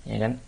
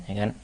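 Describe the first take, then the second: Both takes have the same delivery.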